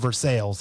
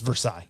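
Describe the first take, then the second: First: The name is said with a local Missouri pronunciation. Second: The name is said with a French pronunciation. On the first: This is how locals pronounce the name. "here in Missouri" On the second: This is the original pronunciation of the name. "that's how it's supposed to be pronounced"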